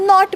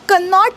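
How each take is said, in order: First: The word begins directly with the n sound. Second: A k sound is heard before the n. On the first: The speaker calls it right. "नॉट म्हणायचं आहे" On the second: The speaker calls it wrong. "आपण कनॉट नाही म्हणायचं आहे"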